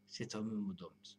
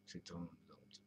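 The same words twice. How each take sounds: First: Each word drawn out very slowly; slow, deliberate. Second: Breathy whisper, much softer. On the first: Musing vlogger savouring his own phrase, very slow. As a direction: lay it down slowly, like a solemn line. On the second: Musing vlogger echoing his phrase to himself, whispered. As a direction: let it fall to a secret whisper. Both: Acted. Repeats the phrase two ways.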